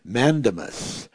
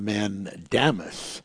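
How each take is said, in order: First: The middle syllable does not sound like 'damn'. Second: The middle syllable sounds like 'damn'. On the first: "Some people would pronounce" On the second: "I like to use the word mandamus because"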